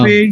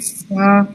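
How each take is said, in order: First: The letter name ends in an 'eh' vowel. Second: The letter name ends in an 'ah' vowel. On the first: This is the Urdu name of the letter. "फे नहीं पढ़ रहे।" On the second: This is the Arabic name of the letter. "अरबी में इसको फा ही पढ़ रहे हैं"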